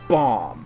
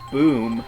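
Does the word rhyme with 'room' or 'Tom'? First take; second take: Tom; room. First: The vowel is short, as in 'Tom'. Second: The vowel is long, as in 'room'. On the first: The speaker calls it right. "She goes bomb" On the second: The speaker calls it wrong. "not boom"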